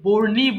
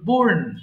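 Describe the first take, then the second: First: The word ends with an added 'ee' vowel. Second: The word ends on the 'n' with no vowel. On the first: The speaker calls it wrong. "এটা কিন্তু বোর্নি বলা যাবে না" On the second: The speaker calls it right. "এটা simple বোর্ন"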